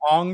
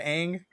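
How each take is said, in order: First: The vowel sounds like the one in 'long'. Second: The vowel sounds like the one in 'hang'. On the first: This is how the film says the name. The speaker calls it wrong. "they call him Ong" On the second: This is how the cartoon says the name. The speaker calls it right. "instead of Ang"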